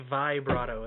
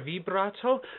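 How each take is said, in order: First: The first vowel is said like 'eye'. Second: The first vowel is not said like 'eye'. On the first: The speaker calls it wrong. "We don't say vibrato. That would be V A I brato" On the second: The speaker calls it right. "there's two ways to say vibrato"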